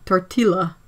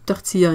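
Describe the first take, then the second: First: The double L is said as an L. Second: The double L is not said as an L. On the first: The speaker calls it wrong. "like an L sound" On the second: The speaker calls it right. "we say tortilla in French"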